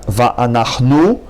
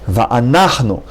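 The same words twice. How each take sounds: First: The stress falls on the last syllable. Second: The stress falls on the third syllable. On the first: The speaker calls it wrong. "not va'anachnu" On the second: The speaker calls it right. "The accent is on a on a third syllable, not on the last syllable"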